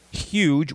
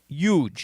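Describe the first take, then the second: First: The starting H sound is pronounced. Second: The starting H sound is dropped. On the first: This is how others say it. "We don't say huge" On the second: This is how people in Jersey say it. "We say huge. We drop the H"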